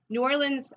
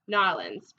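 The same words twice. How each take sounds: First: It falls between the Southern and Northwestern pronunciations. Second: It is said with a Tennessee pronunciation. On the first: "the way I say it... I say it kind of in between those two" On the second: "people in Tennessee... would say like"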